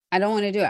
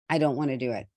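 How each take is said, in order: First: "don't" pushed higher and louder; emphatic repeat. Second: Said in the usual way. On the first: Real, not acted. Repeating her refusal to listeners, emphatic. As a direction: insist on the "don't", stronger the second time.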